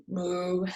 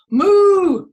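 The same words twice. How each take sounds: First: Lower, softer moo; a modest low cow moo; half-hearted moo. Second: Loud, high, long moo; big hooting cow call. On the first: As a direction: moo that settles down quietly. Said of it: "I'm not a very good mooer". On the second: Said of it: "Everybody moo". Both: Shown as a demonstration.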